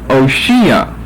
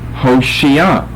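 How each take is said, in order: First: The name begins with a vowel, no H. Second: The name begins with an H sound. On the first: This is the form found in the older English translation. "The H has been dropped" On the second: This is the form the original language has. "Not an O, but an H O"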